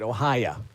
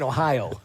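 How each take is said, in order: First: The word ends with an 'ah' sound. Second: The word ends with an 'oh' sound. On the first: The speaker calls it wrong. "Larry called it Ohio. There's no A in Ohio" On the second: The speaker calls it right. "There's no A in Ohio"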